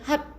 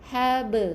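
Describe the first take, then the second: First: The final b is cut off abruptly. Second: The final b is released with a slight bounce. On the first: The speaker calls it wrong. "bukan hab ... tersekat bacaannya" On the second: The speaker calls it right. "kita kena baca dengan hab"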